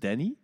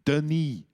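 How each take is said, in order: First: The first vowel is an open 'a' sound. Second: The first vowel is a 'u' sound. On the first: This is how the owner says his name. The speaker calls it right. "Het is Danny" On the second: This is how a teacher kept saying the name. The speaker calls it wrong. "Die bleef mij altijd zo Dunny noemen"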